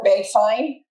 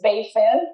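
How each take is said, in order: First: The second word has a long 'eye' vowel. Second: The second word has a short 'i' vowel. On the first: The speaker calls it wrong. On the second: The speaker calls it right.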